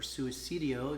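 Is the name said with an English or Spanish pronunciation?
Spanish. The name is said with Spanish-style sounds.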